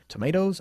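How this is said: It is said in an American accent. "En Estados Unidos dicen tomatoes"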